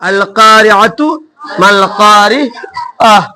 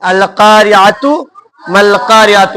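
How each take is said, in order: First: The last word ends with an 'ah' sound. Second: The last word ends with a 'tu' sound. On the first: The reader stops and breaks breath here. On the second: The reading continues without a stop.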